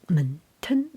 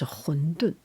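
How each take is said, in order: First: It is said with the Shanghai dialect pronunciation. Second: It is said with the Beijing Mandarin pronunciation. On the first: "and in Shanghai, I think it's" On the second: "in Beijing, is 馄饨"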